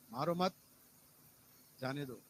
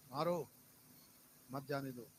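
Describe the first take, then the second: First: "मारो मत" rising together, pause, then lower "जाने दो"; pause after मत. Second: "मारो", full pause, then "मत जाने दो" as one phrase; pause after मारो. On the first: Preacher shows how punctuation changes the sentence, pause after "मत". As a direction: join "मारो मत", break, then let "जाने दो" drop. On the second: Preacher shows where the full stop goes, pause after "मारो". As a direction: put the break right after "मारो", keep "मत जाने दो" together. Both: Shown as a demonstration. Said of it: "कहाँ बिंदी लगाएंगे".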